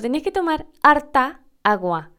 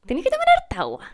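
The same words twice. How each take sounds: First: Imitating Chilean lilt on tomar harta agua; Chilean intonation. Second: High, baffled repeat of a strange phrase; confused echo. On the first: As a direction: run harta agua together Chilean style. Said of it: "por la entonación, parecía que harta agua era una sola palabra". (imitando la entonación chilena) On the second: Retold or imitated. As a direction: echo it back, totally lost. (repetición confundida y aguda)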